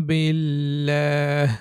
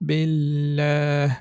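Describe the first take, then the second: No difference in how they are said.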